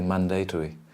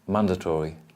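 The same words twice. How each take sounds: First: It is said with a non-American pronunciation. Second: It is said with an American pronunciation. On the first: "I'd say mandatory" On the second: "Probably Americans will say mandatory"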